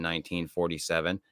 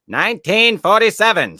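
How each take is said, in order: First: Said in the usual way. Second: Dramatic exclaim. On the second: Acted. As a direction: belt the date out like a big reveal. Dramatic repeat of date.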